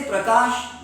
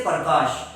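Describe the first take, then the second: First: PRAKASH with p and r run together, no vowel between; correct pra cluster. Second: PARKASH with a vowel slipped in before the r; mispronounced par. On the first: Shown as a demonstration. Teacher models Prakash for the class, correct pr cluster. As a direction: say Prakash with a clean PR start. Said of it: "When I say, uh, say". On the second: Retold or imitated. Teacher imitating Urdu medium students, par for pra. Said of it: "They say par".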